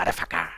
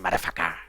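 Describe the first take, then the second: First: The word is said with all its syllables. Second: The same.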